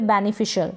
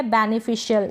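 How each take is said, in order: First: "बेनिफिशियल" ending in one syllable, shul; short shul ending. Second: "बेनिफिशियल" ending in shi-yal; full shi-yal ending. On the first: Teacher offering second option, "बेनिफिशियल" with shul ending. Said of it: "या फिर बेनिफिशियल". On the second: Teacher offering first option, "बेनिफिशियल" with shi-yal ending. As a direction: keep two syllables at the end of "बेनिफिशियल". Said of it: "बेनिफिशियल या फिर बेनिफिशियल". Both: Shown as a demonstration.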